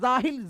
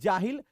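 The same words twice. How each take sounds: First: The word begins with a 'z' sound. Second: The word begins with a 'j' sound. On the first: The speaker calls it wrong. "जाहिल जे से नहीं होगा" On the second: The speaker calls it right. "बल्कि जाहिल जीम से होगा"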